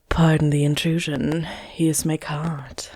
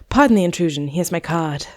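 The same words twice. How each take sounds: First: It is read in a sexy voice. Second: It is read in a plain voice.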